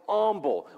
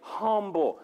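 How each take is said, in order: First: The word begins with a vowel, no H. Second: The word begins with an audible H sound. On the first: The speaker calls it wrong. "I grew up, it was always humble" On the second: The speaker calls it right. "I said it with an H"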